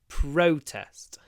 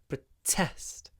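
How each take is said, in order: First: The stress is on the first syllable. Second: The stress is on the second syllable. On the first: It is used as a noun. "the stress is on the first syllable" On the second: It is used as a verb. "when it's a verb, protesting, the stress is on the second syllable"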